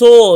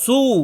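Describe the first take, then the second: First: The vowel is a mid, loosely rounded o. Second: The vowel is a close, fully rounded u. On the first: The speaker calls it wrong. "কেউ কেউ বলতে সো" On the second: The speaker calls it right. "সো না তো সু"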